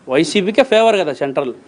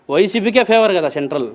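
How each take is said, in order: Both takes have the same delivery.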